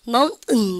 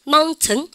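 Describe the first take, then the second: First: The t is held back and swallowed in the throat. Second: The t is clearly released before the ending. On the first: "미국 애들은요... 쌤이 한번 발음해 보세요. mountain, 이렇게" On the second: "영국 애들은 mountain, item, 여러분들 이렇게 합니다"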